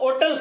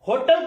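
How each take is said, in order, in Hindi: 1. यह शब्द सीधे स्वर से शुरू होता है। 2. यह शब्द h ध्वनि से शुरू होता है। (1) "पहले होटल को ओटल कहा जाता था" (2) "जब होटल को आप ह से बोलते हैं"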